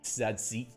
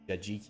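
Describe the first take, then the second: First: The consonants are said as TS sounds. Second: The consonants are said as J sounds. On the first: The speaker calls it wrong. "It's not Tzatziki" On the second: The speaker calls it right. "So it's a J sound"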